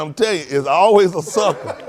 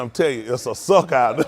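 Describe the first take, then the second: First: Laughing quote. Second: Quoting the boot maker. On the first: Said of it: "he said". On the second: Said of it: "He said". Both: Retold or imitated.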